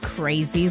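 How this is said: It is said in an amazed, astonished tone. Something happened that is hard to believe. "you are not going to believe this"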